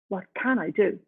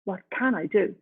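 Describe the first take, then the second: First: It sounds motivated and ready for action. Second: The same.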